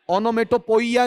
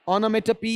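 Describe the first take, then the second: First: The word ends with a 'poya' sound. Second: The word ends with a 'pee' sound. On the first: The speaker calls it wrong. "नहीं है" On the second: The speaker calls it right. "है"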